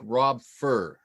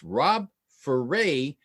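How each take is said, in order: First: The surname is one syllable rhyming with fur. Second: The surname is two syllables rhyming with hooray. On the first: It is read straight from the spelling. The speaker calls it wrong. "if you read it off the page, it looks like" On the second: It is how the owner says his name. The speaker calls it right. "he said it's Rob Foray, rhymes with hooray"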